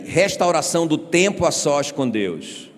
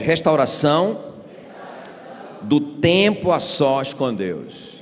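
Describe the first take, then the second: First: Said in the usual way. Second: Slow, called out with force; shouted louder. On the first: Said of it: "grita aí". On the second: Shown as a demonstration. Pastor leading the congregation, slow forceful shout. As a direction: lean on each word, slowly. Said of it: "Não, grita bem forte".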